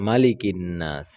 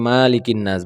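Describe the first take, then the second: First: The first vowel 'ma' is said short and quick. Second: The first vowel 'ma' is drawn out long. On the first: The speaker calls it right. "মাতে টান দেওয়া যাবে না, বলতে হবে মালিকিন নাস" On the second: The speaker calls it wrong. "অনেকে মালিকিন নাস বলে মাতে টান দেয়"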